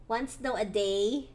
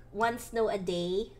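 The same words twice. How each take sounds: The two takes are said the same way.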